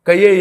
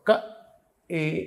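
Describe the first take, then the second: First: The syllables are joined with a y glide. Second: The syllables are kept separate, from the throat. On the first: The speaker calls it wrong. "కయ్యే ఏ లక్ష్మీ అని చదివేశాడు ఒకడు ... అలా చదవకూడదు" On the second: The speaker calls it right. "క ఏ ఇక్కడి నుంచి పలకాలి"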